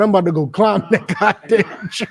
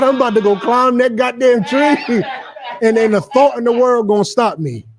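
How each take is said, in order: First: Laughing while imitating him; laughing through it. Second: Higher, hammed-up eager boast; mock eager boast. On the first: Preacher mocking Tory to the crowd, laughing. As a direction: crack up mid-quote. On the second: Preacher mocking Tory's eagerness, higher hammed-up boast. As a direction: play him giddy and sure of himself. Retelling Tory again, pitched up.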